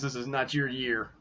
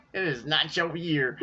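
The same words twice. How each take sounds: First: Said in the usual way. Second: A gleeful taunt, said through laughter and higher; laughing taunt. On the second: Real, not acted. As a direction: rub it in to rival fans while still laughing. Repeats the taunt while laughing.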